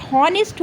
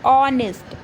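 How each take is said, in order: First: हॉनेस्ट with a spoken H at the start; H wrongly sounded. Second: ऑनेस्ट starting on the vowel, "on-est"; silent H. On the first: Teacher showing the spelling trap, हॉनेस्ट with the H pronounced. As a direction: say हॉनेस्ट with the H voiced, "hon-est". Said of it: "इसमें एच हमेशा क्या होता है". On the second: Teacher giving the correct pronunciation, ऑनेस्ट with silent H. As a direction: say ऑनेस्ट with no H at all. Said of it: "तो उसको बोला क्या जाता है". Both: Shown as a demonstration.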